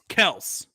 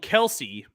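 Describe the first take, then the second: First: The name is said as one short syllable. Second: The name is said with two syllables. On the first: This is the family's actual pronunciation. The speaker calls it right. "It's Kels" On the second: This is how the public knows the name. The speaker calls it wrong. "They would call him Kelsey"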